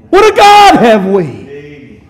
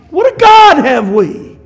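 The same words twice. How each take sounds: First: Slow exclamation. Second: Ringing exclamation. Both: Real, not acted.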